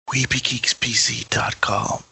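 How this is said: It is said in a soft, whispered voice.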